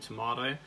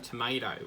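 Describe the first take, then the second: First: It is said with a British pronunciation. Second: It is said with an American pronunciation. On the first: This is how the speaker's own country says it. "whereas we go tomato" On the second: This is how Americans say it. "They go tomato"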